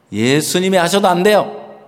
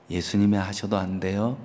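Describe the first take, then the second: First: 예수님이 하셔도 안 돼요 stated flatly, falling on 돼요; firm statement. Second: Soft question 예수님이 하셔도 안 돼요 with a rising end, lower and softer; smiling. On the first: Shown as a demonstration. Preacher repeating the line to the congregation as a falling statement. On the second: Retold or imitated. Pastor smiling as he questions the mother, softly. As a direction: gently tease with a smile. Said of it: "제가 웃으면서".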